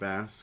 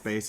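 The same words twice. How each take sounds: First: The vowel rhymes with 'mass'. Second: The vowel rhymes with 'face'. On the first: It names the fish. The speaker calls it wrong. "and not bass because I don't think he's probably ... fishing" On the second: It names the musical instrument. The speaker calls it right. "I'm assuming it's bass"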